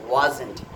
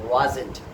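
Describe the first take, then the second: Both takes have the same delivery.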